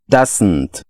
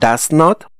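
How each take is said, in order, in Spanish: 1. Se dice como una sola palabra contraída. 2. Se dice como dos palabras completas separadas. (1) "este pequeño schwa lo que hace es como un puente" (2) "Unimos las dos palabras para formar una"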